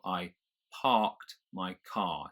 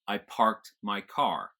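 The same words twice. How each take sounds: First: The r sounds in parked and car are silent. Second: The r sounds in parked and car are pronounced. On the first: "the R comes before the K of parked, so I don't pronounce it" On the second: "an American would pronounce both of those"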